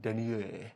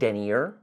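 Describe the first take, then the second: First: The word is said with a French pronunciation. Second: The word is said with an English pronunciation. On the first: "like French" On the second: "instead of denier"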